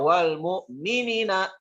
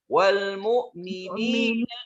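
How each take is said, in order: First: The vowel before the last syllable is kept short. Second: The vowel before the last syllable is held long. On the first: The speaker calls it wrong. "Jangan dibaca" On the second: The speaker calls it right.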